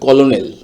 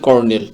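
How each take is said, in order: First: It is said as three syllables, 'ko-lo-nel'. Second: It is said like 'kernel', with no middle syllable. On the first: "বানানের উচ্চারণ যদি সঠিকভাবে করতে চান" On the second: "এই শব্দটির উচ্চারণ হচ্ছে"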